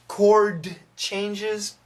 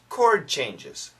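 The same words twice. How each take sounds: First: The D in 'chord' is clearly pronounced. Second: The D in 'chord' is very weak. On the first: The speaker calls it wrong. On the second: The speaker calls it right. "the D sound is really weak"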